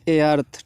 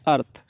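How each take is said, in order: First: A separate vowel sound comes before the word. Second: The word starts directly without an extra vowel. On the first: The speaker calls it wrong. "बच्चे बहुत ज़्यादा ए अर्थ पढ़ते रहते हैं" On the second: The speaker calls it right. "आपको हमेशा अर्थ पढ़ना है"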